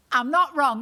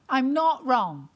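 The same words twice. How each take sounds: First: Louder "I'm not wrong" with "not" hit hard; punchy "not wrong". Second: Slow "I'm not wrong" with every word weighed; slow emphatic repeat. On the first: Comedian to audience, punchy "not wrong". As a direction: snap "not" out at the crowd. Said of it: "repeats the line to the crowd". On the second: Comedian to audience, slow emphatic repeat. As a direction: lean on "not" and draw it out. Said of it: "repeats it slower for emphasis". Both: Shown as a demonstration.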